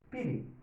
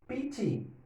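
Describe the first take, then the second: First: The middle consonant is an r-like tap. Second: The middle consonant is a hard t.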